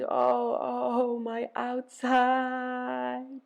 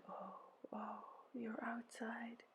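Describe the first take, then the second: First: High, long-drawn moan. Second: Very hushed, slow moan; soft echoed moan. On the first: Ereshkigal moaning over her outside, high drawn-out moan. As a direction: stretch the words into a slow high wail. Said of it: "She moaned". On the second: Helpers echo Ereshkigal's pain, whispery sympathetic moan. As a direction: moan it back almost in a whisper. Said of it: "They moaned". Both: A narrator's reading.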